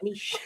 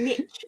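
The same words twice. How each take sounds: First: The word is said with a French pronunciation. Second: The word is said with an American pronunciation. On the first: The speaker calls it right. "it's the French word niche" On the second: The speaker calls it wrong. "I've heard Americans saying niche"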